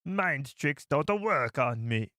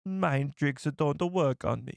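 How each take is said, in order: First: Slow, lightly put-on alien accent; slow mock Watto accent; Watto impression. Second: Slow, lightly put-on alien accent; mild mock Watto; Watto impression. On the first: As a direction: drag it out like Watto. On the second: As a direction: copy the clip slowly. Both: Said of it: "It's almost like a Jamaican accent".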